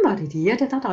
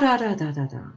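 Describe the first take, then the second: First: The pitch goes up into a high voice. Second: The pitch drops down low and fades out. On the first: The speaker sounds optimistic. "So you go up in the sentence" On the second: The speaker sounds pessimistic. "dumping the voice down in the cellar"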